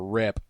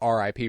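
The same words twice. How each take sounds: First: It is said as a single word. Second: It is spelled out as three separate letters. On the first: It is the ordinary word rip. "like like R I P" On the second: It stands for rest in peace. "rest in peace"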